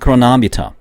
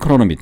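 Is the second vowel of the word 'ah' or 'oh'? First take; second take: ah; oh. First: The second vowel sounds like 'ah', English-style. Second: The second vowel sounds like 'oh', Korean-style. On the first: "영어 발음으로는 크로나미터입니다" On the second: "우리나라 말로는 크로노미터"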